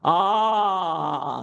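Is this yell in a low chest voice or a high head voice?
chest. The yell is low, in the chest voice. "here's Tarzan"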